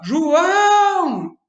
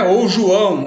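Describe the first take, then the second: First: "João!" called loud with a long, high ÃO; short JO, then stretch and lift ÃO in "João!"; calling out, last syllable stretched. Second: Said in the usual way. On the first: Shown as a demonstration. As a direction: holler "João!" as if from a window, holding the final syllable. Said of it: "a gente puxa mais a última sílaba".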